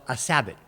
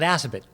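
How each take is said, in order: First: The name is said like "a Sabbath." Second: The name is said the way locals say it. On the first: This marks the person as not from the area. "You call it a Sabbath twice" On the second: This is how people from the area say it. "local people call it Assabet"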